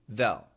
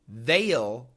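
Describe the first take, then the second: First: The vowel is quick and reduced. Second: The vowel is full and clearly pronounced. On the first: The speaker calls it right. "when they say it quickly, they say they'll" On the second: The speaker calls it wrong. "they do not say they'll"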